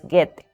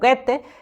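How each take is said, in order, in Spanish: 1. El nombre se dice sin un sonido de O separado. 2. El nombre se dice con un sonido de O español. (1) "los alemanes no pronuncian la O, por tanto es Goethe" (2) "sino se diría como Goethe"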